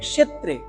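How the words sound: It is said with Sanskrit pronunciation. "সংস্কৃতে উচ্চারণ হবে"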